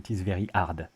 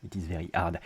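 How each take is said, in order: First: The h in hard is dropped. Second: The same.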